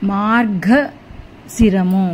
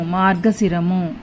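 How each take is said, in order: First: మార్గశిరము spelled out very slowly, syllable by syllable, with the గ clearly voiced; slow careful reading. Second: Said in the usual way. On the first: Shown as a demonstration. Teacher slowly modelling మార్గశిరము for children, syllable by syllable. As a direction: drag మార్గశిరము out so every sound is heard. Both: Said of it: "గావత్తు చక్కగా పలకాలి".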